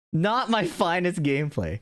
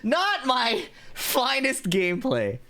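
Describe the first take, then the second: First: Said in the usual way. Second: Slow, high ironic sigh; drawn-out self-mocking. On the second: Real, not acted. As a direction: stretch it out, mocking yourself. Laughing after dying.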